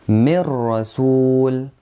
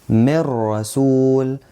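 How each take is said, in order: Both takes have the same delivery.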